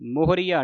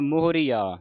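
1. ਅੰਤਲਾ 'aa' ਸ਼ਬਦ ਤੋਂ ਸਿੱਧਾ ਅੱਗੇ ਚੱਲਦਾ ਹੈ। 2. ਅੰਤਲਾ 'aa' ਸ਼ਬਦ ਤੋਂ ਵੱਖ ਕੀਤਾ ਹੋਇਆ ਹੈ। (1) "ਮੋਹਰੀਆ ਨਹੀਂ ਕਹਿ ਦੇਣਾ" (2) "ਇਹ ਵੀ ਐੜਾ ਸੰਗਤ ਜੀ ਵੱਖਰਾ ਕਰਨਾ ਹੈ"

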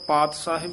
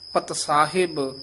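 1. ਪਹਿਲੇ ਸ਼ਬਦ ਵਿੱਚ ਲੰਬਾ ਸਵਰ ਹੈ। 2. ਪਹਿਲੇ ਸ਼ਬਦ ਵਿੱਚ ਛੋਟਾ ਸਵਰ ਹੈ। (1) "ਇਸ ਨੂੰ ਪਾਤ ਸਾਹਿਬ ਨਹੀਂ ਕਹਿ ਦੇਣਾ, ਇੱਥੇ ਕੰਨਾ ਨਹੀਂ ਹੈ" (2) "ਇਸ ਤਰ੍ਹਾਂ ਸ਼ੁੱਧ ਬੋਲਣਾ ਹੈ"

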